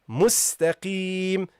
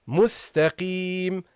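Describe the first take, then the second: No difference in how they are said.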